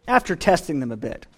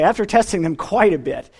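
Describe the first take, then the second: First: Said in the usual way. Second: Quicker, with weight on "quite"; stress on QUITE. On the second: Real, not acted. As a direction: lean on "quite" as a wry correction. Corrects himself, stressing quite.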